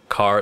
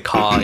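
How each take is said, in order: First: The final R sound is pronounced. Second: The final R sound is dropped.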